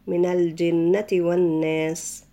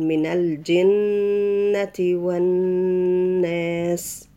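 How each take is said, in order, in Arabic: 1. الغنة في النون المشددة تكون قصيرة فقط. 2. النون المشددة تُمدّ فيها الغنة وتُطال. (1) "ما ينفعش نقول مثلا" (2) "لا نقول من الجنة والناس، ولازم الغنة تخرج من الأنف"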